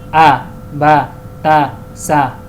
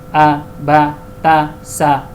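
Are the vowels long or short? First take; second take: short; short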